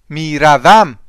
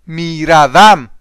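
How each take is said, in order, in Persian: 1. این کلمه با سه تا هجای کامل گفته میشه. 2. این کلمه با سه تا هجای کامل گفته میشه.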